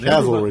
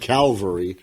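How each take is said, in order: First: It begins with cav, the v before the l. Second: It begins with cal, the l before the v. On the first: The speaker calls it right. "Cavalry, not like Calvary" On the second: The speaker calls it wrong. "not like Calvary"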